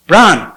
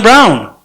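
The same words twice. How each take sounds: First: Braun with an open ah vowel; "Braun" said "brahn". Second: Braun rhyming with "town", drawn out; "Braun" with an ow vowel; Braun as "brown". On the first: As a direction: say Braun to rhyme with John, correcting yourself. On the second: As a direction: say Braun like the English word brown. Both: Shown as a demonstration.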